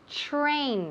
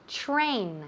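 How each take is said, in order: First: The t and r blend into a ch-like sound. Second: The t and r blend into a ch-like sound.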